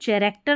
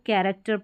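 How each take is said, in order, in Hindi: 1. शब्द की शुरुआत ch की आवाज़ से होती है। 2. शब्द की शुरुआत k की आवाज़ से होती है। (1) "इसको चैरेक्टर नहीं पढ़ते" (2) "इसको कैरेक्टर पढ़ते हैं"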